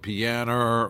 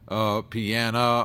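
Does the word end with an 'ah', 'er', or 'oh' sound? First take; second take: er; ah. First: The word ends with an 'er' sound. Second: The word ends with an 'ah' sound. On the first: "or pianer" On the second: "it came out piana"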